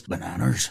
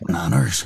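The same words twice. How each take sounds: First: Low, soft Northern Irish "Bananas" with a rising end; Liam Neeson impression. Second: Liam Neeson impression. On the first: Asked for Liam Neeson, a quiet Northern Irish bananas. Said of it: "Liam Neeson impression ... bananas". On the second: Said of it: "the one word you can use to do a Liam Neeson impression". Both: Shown as a demonstration.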